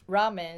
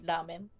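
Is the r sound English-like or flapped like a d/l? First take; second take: English-like; flapped. First: It starts with an English-style r sound. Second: It starts with a flap between d and l.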